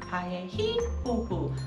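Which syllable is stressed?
히. The stress falls on the third syllable.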